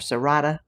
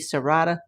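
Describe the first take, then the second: First: The name is said with Spanish pronunciation. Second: The name is said with English pronunciation. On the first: "Spanish would be Serrata" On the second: "English would be Serrata"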